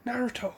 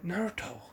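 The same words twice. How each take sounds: First: A higher but still soft Naruto, more urgent; pleading. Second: Softly murmuring Naruto, to hold him back; hushed plea. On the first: Sakura pleading with Naruto to stop, higher and urgent. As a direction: raise the pitch on the second Naruto, still hushed. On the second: Sakura quietly urging Naruto to back off, hushed. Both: Retold or imitated. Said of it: "trying to get him to back off".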